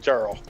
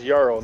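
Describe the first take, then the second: First: The word begins with a J sound. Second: The word begins with a Y sound. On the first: The speaker calls it wrong. "not jarl" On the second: The speaker calls it right. "The word is jarl"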